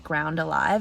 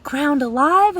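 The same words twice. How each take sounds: First: Said in the usual way. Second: Loud, high-pitched incredulous question, acted out; mock disbelief. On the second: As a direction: imitate a shocked echo, high and loud. Printer's shocked echo, retold.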